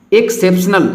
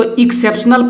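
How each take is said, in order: First: एक्सेप्शनल starting with e, "ek-sep-snal"; correct pronunciation. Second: एक्सेप्शनल starting with short i, "ik-sep-snal"; wrong pronunciation. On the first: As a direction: open एक्सेप्शनल on e, not i. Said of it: "इसको पढ़ना है". (एक्सेप्शनल, शुरू में "ए" की आवाज़) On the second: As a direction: open एक्सेप्शनल on an "ik" sound. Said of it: "बहुत लोग इसको". (एक्सेप्शनल को गलत "इक्सेप्शनल" बोलें) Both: Shown as a demonstration.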